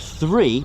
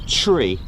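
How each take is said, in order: First: It begins with a th sound. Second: It begins with a plain t sound. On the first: "the number three" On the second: "pronounced as tree"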